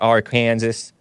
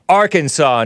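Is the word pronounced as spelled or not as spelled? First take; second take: as spelled; not as spelled. First: The word is pronounced as it is spelled. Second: The word is not pronounced as it is spelled. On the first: The speaker calls it wrong. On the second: The speaker calls it right.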